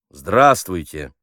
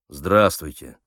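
First: The greeting is said a little louder. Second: The greeting is said quietly and gloomily. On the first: The greeting shows more respect. "чуть громче произнес" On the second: The greeting shows little respect. "хмуро ответил"

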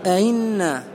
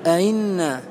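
Both takes have the same delivery.

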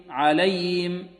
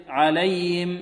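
No difference in how they are said.

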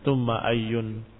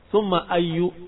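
First: The word ends in an 'un' sound. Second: The word ends in a short 'u' vowel. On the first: The word is read as standing alone. The speaker calls it right. "dengan tanwin" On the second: The word is read as possessing a following noun. The speaker calls it wrong. "dikatakan bahwasanya dia dibaca summa ayyu karena takdir mudhaf"

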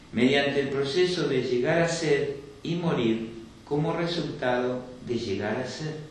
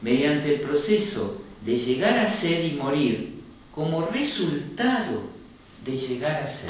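The two takes are said the same way.

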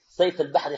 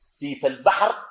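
First: The first word is said without an 'i' vowel. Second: The first word has an 'i' vowel after 's'. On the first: The speaker calls it wrong. "الناس بينطقوها شنو؟ ... خطأ" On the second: The speaker calls it right. "بكسر السين"

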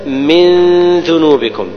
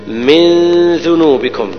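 The two takes are said the same way.

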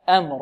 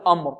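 First: The opening glottal stop is light and soft. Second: The opening glottal stop is heavy and thick. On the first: The speaker calls it right. "لابد من تلطيف الهمزة وتلطيف الميم" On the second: The speaker calls it wrong. "نفخم الهمزة خطأ، لا نقول"

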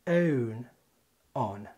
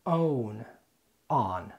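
First: The words are said in a British accent. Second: The words are said in an American accent. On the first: "انطقهم لك بريطاني بنفس الترتيب" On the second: "ده كان النطق الامريكي"

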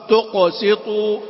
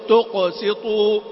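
No difference in how they are said.

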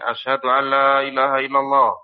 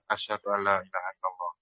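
First: The phrase is said loudly. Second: The phrase is said softly. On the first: "Kemudian keras lagi" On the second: "Kemudian dia mengucapkan dengan pelan"

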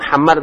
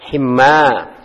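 First: The first vowel is an 'a' sound. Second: The first vowel is an 'i' sound. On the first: The speaker calls it wrong. "bukan hamar" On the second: The speaker calls it right. "tapi himar"

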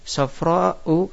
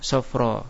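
First: The word ends with a glottal stop and vowel. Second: The word ends on a vowel without a glottal stop.

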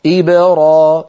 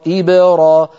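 Both takes have the same delivery.

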